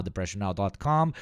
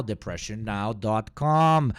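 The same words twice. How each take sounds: First: Said in the usual way. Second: Slow, loud announcer read of the address; mock announcer. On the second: Streamer mocking the show's web address, drawn-out ad read. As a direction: stretch out "depression now dot com" like an ad. Parody of news show intro.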